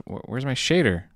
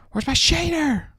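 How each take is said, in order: First: Said in the usual way. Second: Much higher, frantic repeat; panicked high squeak. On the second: Real, not acted. Streamer losing his shader, squeaking in panic.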